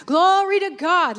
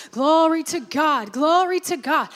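First: Loud, high shout of praise; lifted voice. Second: Rising, louder praise warming up; getting happy. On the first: Retold or imitated. Preacher voicing the man now fully lifting his voice in praise. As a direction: lift your voice on it. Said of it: "lift his voice". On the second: Acted. Preacher acting a reluctant man forcing himself into praise. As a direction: push yourself into praising. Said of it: "but I'm gonna get happy about it".

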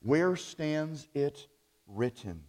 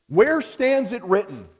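First: Slow, measured repeat. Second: Where stands it written? called out high and loud; ringing challenge. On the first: Preacher repeating the catchphrase slowly for the congregation. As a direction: let each word land slowly. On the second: Preacher voicing the free church catchphrase, loud and high. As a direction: fling the question out like a rallying cry. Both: Retold or imitated. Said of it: "was their phrase".

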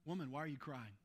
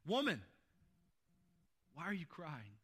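First: Soft angel's question. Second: Jesus asking, voiced louder. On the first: Retold or imitated. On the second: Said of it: "he says".

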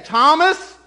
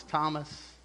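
First: High, loud, accusing call on the name; scolding. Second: Soft, low, tender call on the name; gracious, merciful. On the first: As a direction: call him out like a telling-off. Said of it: "and just scold him". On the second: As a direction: say the name softly, with mercy. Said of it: "in a gracious, merciful way". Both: Retold or imitated.

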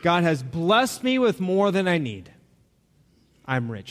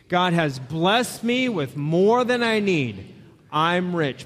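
First: Said in the usual way. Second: Congregation recitation. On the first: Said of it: "There it is up on the screen". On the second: Shown as a demonstration. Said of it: "Read it with me".

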